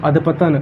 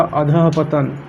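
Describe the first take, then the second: First: अधपतन said straight through as adh-patan with no break after adh; wrong form without visarga. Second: अधःपतन said slowly as adha-patan with the breath of the visarga after adh; correct form with visarga. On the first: Teacher reads the wrong option to students, plain adh-patan with no visarga. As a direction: read out अधपतन as the incorrect option, run together. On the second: Teacher corrects the spelling for students, slow careful adha-patan. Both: Shown as a demonstration. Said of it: "अधपतन की जगह अधःपतन होगा".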